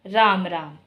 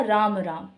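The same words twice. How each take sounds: First: Scornful राम राम, pitch falling away; contempt. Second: राम राम stretched out, a clear gap between the words; respectful राम राम with each word lengthened; drawn-out greeting. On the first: Teacher shows the greeting turned to hatred, scornful falling राम राम. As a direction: say राम राम as if disgusted by someone. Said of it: "ये बड़ा घृणा सूचक था". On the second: Teacher repeats her example greeting, drawn-out राम राम. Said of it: "जो खिंचाव है वो ज़्यादा था". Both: Shown as a demonstration.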